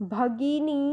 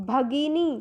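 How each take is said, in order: The two takes are said the same way.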